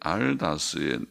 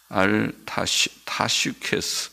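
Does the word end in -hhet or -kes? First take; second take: -hhet; -kes. First: The word ends with a -het sound. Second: The word ends with a -shkes sound.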